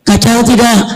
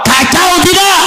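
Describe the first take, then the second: First: Said in the usual way. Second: High, shouted to the crowd; preacher shouting the question back. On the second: Acted. Preacher asks the crowd twice.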